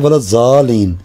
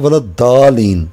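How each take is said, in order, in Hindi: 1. मुख्य व्यंजन z जैसा सुनाई देता है। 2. मुख्य व्यंजन d जैसा सुनाई देता है। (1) "हम कहते हैं वलद जालीन" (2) "अरब बोलते हैं वलद दालीन"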